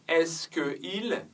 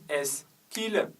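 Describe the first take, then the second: First: The vowel of que is fully pronounced. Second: The vowel of que is dropped and linked. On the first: The speaker calls it wrong. "on ne dit pas" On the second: The speaker calls it right. "on dit"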